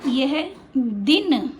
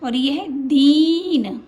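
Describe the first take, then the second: First: Slow, दिन with a clipped short i; छोटी इ वाला दिन. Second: Slow, दीन with a long held ee; लंबी ई वाला दीन. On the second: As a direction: stretch the ee in दीन. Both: Shown as a demonstration. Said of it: "आप उच्चारण पर ध्यान देना".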